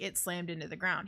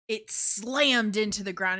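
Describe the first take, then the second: First: It is said plainly, without strong emphasis. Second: It is said with strong, dramatic emphasis.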